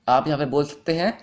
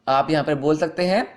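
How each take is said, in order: No difference in how they are said.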